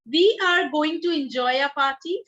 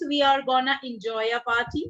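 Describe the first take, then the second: First: The phrase 'going to' is said in full. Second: The phrase 'going to' is reduced to 'gonna'.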